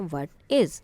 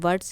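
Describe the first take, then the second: First: It is said as two full words. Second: It is said as one contracted word. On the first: This form is also used in writing. "expanded form" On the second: This is the usual spoken form. "contracted form of the verb while speaking"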